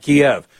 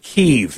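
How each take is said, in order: First: The name is said the English way, like 'Kee-ev'. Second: The name is said the Ukrainian way, like 'Keev'. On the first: This is the traditional English way to say it. "not Kiev" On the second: This is how people in Ukraine say it. "because that's how people say it in Ukraine"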